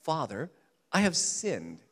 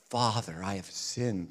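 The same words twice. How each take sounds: First: Plainer rehearsal. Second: Hammed-up grave confession; too dramatic. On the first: Retold or imitated. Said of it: "I can imagine him practicing that". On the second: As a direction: lower and softer, heavy and mournful. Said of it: "that's too dramatic".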